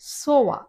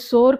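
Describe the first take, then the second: First: The vowel sounds like 'ow' followed by 'uh'. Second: The vowel sounds like 'oh' with a final r. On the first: The speaker calls it right. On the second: The speaker calls it wrong. "అది సోర్ కాదు"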